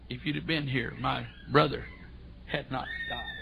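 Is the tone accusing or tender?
tender. It is said in a tender, worshipful tone.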